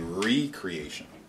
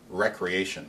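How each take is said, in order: First: The word begins with a long 'ree' sound. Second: The word begins with a short 'rek' sound. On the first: It means creating something anew. The speaker calls it right. "the word is really recreation" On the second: It means leisure or play. The speaker calls it wrong. "has been pronounced recreation"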